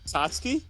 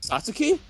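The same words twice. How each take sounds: First: The u after ts is silent. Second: The u after ts is clearly sounded. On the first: The speaker calls it right. "It's the U is silent" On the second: The speaker calls it wrong. "You know you're saying your name wrong"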